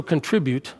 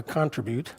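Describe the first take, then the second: First: Said in the usual way. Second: CONtribute, stressed on the first syllable; South African pronunciation. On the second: Shown as a demonstration. Preacher shows congregation South African wording, CONtribute with front stress. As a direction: say contribute as CON-tri-bute, stress up front. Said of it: "as we would say in South Africa".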